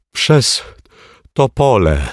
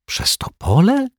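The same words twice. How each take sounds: First: Said in the usual way. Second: Przez Topole whispered high, rising in disbelief; stunned whisper. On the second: Acted. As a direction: gasp out Przez Topole in astonishment. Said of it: "osłupiała Asia".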